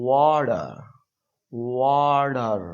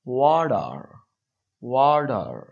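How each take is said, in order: No difference in how they are said.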